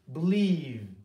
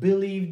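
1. Vurgu ikinci heceye düşer. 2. Vurgu birinci heceye düşer.

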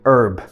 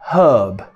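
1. A palavra começa sem o som de h. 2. A palavra começa com o som de h. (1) "No inglês americano é herb. O H, ele é silent" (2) "se você estiver usando o inglês britânico, eles falam herb"

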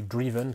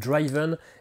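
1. La première voyelle est courte, comme dans 'give'. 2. La première voyelle est longue, comme dans 'drive'.

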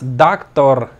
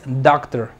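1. Las dos sílabas se pronuncian fuertes y marcadas. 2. Una sílaba lleva el acento, y la otra es débil. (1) "No digas doctor" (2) "esta sílaba se pronuncia débil"

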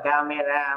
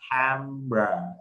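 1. Từ camera có ba âm tiết. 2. Từ camera có hai âm tiết. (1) "nó không phải là camera" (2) "nó có hai âm thôi các anh chị"

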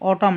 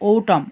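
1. প্রথম স্বরধ্বনিটি একটি খোলা 'a' এর মতো শোনায়। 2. প্রথম স্বরধ্বনিটি একটি গোলাকার 'o' এর মতো শোনায়। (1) "অটাম না" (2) "এটি কিন্তু সঠিক উচ্চারণ ওটাম"

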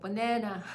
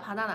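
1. 가운데 음절에 강세가 뚜렷하게 있어요. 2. 모든 음절을 고르게 발음하고, 뚜렷한 강세는 없어요. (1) "아니고 banana" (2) "바나나 아니고"

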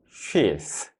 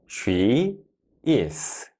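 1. 두 단어가 줄어들어 한 음절이 됩니다. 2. 두 단어를 모두 완전하고 따로따로 말합니다.

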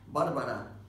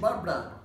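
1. El nombre se dice con tres sílabas. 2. El nombre se dice con dos sílabas. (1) "In Spanish, there are three syllables" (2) "But in English, you say Barbara, you know, in two syllabs"

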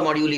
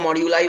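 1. शब्द 'ee' ध्वनि से खत्म होता है। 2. शब्द 'eye' ध्वनि से खत्म होता है। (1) "और मॉड्यूली बोलो" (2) "आई उसको मॉड्यूलाई बोलो"

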